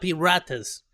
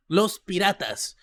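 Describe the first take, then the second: First: Piratas with an English R; wrong r. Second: Piratas with a rolled Spanish R. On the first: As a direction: Piratas said with a flat American R. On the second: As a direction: trill the R in Piratas. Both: Shown as a demonstration. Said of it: "you are so close to the pronunciation".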